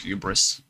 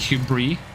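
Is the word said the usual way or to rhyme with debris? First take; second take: usual; debris rhyme. First: The word is said with its usual pronunciation. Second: The word is said to rhyme with debris. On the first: "I love the word hubris" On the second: "pronounced the same way as the word debris"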